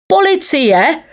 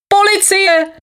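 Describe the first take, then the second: First: High-pitched call for the police. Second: Very high, shrieked call for police; yelling. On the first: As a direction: call for help in a high, rising voice. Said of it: "volal synovec pana rady". (vysoké volání o pomoc) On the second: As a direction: cry out for help high in the voice. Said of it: "křičel synovec". (vysoký křik o pomoc) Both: A narrator's reading.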